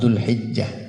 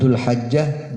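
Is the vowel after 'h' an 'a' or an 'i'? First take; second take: i; a. First: The vowel after 'h' is an 'i' sound. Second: The vowel after 'h' is an 'a' sound. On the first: "tapi yang bagus dibaca kasroh"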